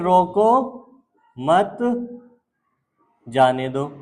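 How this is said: The pause comes right after the second word.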